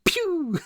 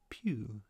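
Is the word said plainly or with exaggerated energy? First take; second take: exaggerated energy; plainly. First: It is said with exaggerated, punchy energy. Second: It is said plainly and calmly.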